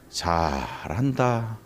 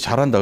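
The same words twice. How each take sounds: First: It is said with a mocking, sarcastic intonation. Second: It is said in a plain, sincere tone. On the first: The speaker is mocking the child's behavior. "근데 억양이 다르지. 잘한다 이렇게 나오겠지" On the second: The speaker genuinely praises the child. "잘한다 그래야지"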